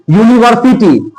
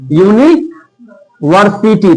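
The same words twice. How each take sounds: First: Said in the usual way. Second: "university" stretched slowly, each syllable drawn out; slowly spelled out. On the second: Shown as a demonstration. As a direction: pronounce "university" slowly so the य sound is heard. ("University" धीरे-धीरे खींचकर) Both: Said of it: "university का अगर हिंदी में करेंगे".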